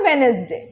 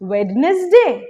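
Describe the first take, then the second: First: It has three syllables without the 'd'. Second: The 'd' is sounded in the first syllable. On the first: "wrong" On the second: "wrong"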